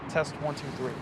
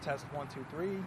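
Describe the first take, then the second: First: The recording level is at normal loudness. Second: The recording level is lower and quieter. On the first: This is the main recording. "Here's the regular track of the D J I mic" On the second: This is a backup copy in case the levels were off. "Now this is the safety track of the D J I mic"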